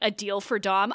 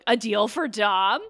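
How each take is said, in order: First: It is read in a plain, normal voice. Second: It is said in a dramatic Batman narrator voice.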